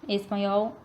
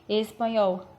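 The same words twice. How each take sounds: No difference in how they are said.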